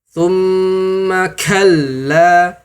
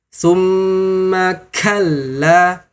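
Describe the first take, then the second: First: The k releases a heavy burst of breath. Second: The k releases a heavy burst of breath.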